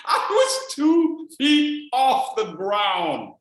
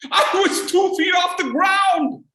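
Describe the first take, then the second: First: Drawn out slow repeat; slow deliberate repeat of the punchline; slow emphatic. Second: Laughing loud punchline; loud high disbelief at himself. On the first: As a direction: savor each word slowly. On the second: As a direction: belt out the absurdity. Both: Real, not acted.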